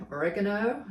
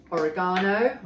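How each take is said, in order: First: Oregano with stress on REG, "o-REG-a-no"; American pronunciation. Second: Oregano with stress on GA, "o-re-GAH-no"; British pronunciation. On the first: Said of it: "as the Americans say". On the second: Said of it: "We say oregano". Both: Shown as a demonstration.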